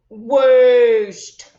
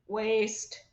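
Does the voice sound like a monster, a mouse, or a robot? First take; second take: monster; robot. First: It is said in a deep, growly monster voice. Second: It is said in a flat, mechanical robot voice. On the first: "How about in a monster voice?" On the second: "Can you say it in a robot voice?"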